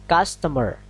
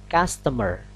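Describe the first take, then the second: The two takes are said the same way.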